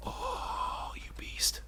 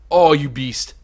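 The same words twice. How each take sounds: First: Hushed whispered admiration. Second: Said in the usual way. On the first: Real, not acted. Player whispering in awe at the beetle. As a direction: breathe it out in awe.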